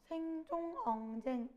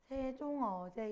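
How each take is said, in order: First: The syllables se, eo, je end with ng. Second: The syllables se, eo, je end without ng. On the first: "여기 이응이 있으면 이응을 읽어" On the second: "쌤이 계속해서 세종어제 이렇게 읽고 있지만"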